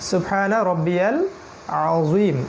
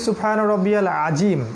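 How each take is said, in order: First: The z has rounded lips, tongue forward. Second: The z is a plain z sound. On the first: The speaker calls it right. "এটা হবে সুবহানা রব্বিয়াল আযীম" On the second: The speaker calls it wrong. "অনেকে পড়ি সুবহানা রব্বিয়াল আজিম, আজিম নয়"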